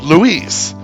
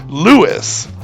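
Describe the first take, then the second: First: The name is said with a Spanish pronunciation. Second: The name is said with an English pronunciation. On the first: The speaker calls it wrong. "stick to the pure Spanish way" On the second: The speaker calls it right. "pronounced like it would be in English"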